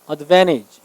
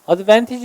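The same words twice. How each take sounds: First: The t sound after the n is dropped. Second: The t sound after the n is pronounced. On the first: "N 다음에 T 발음이 잘 생략되죠. 그래서 advantage 이렇게 발음합니다. 미국 사람들은" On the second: "advantage 해도 돼요"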